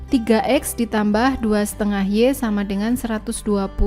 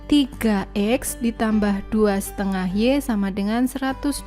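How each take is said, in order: The two takes are said the same way.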